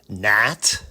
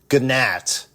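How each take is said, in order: First: The word starts with an N sound. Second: The word starts with a hard G sound. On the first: The speaker calls it right. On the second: The speaker calls it wrong.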